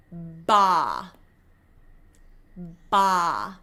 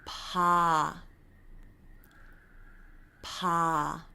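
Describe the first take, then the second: First: Ba with tense lips, like a sheep; hard English B. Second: Pa with soft, relaxed lips; soft Korean B. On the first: Teacher showing the wrong hard English B. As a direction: bleat ba with lips pressed. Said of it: "what we are not doing is". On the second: Teacher showing the softened Korean B. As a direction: ease out a gentle pa. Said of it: "soften that B sound". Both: Shown as a demonstration.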